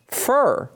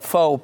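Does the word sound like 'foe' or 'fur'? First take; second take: fur; foe. First: The word is said with a vowel like 'fur'. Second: The word is said with a vowel like 'foe'. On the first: "They tell me it's fur" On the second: "not faux like F-A-U-X, fake, but faux, P-H-O"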